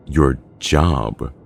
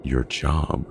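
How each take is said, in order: First: Louder, incredulous challenge; angry outburst. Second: Restrained, offended echo; incensed disbelief. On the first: John set off by a remark, angrily louder. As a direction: hit it hard, anger breaking out. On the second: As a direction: throw it back with contained anger. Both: A narrator's reading. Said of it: "seems to have set off John".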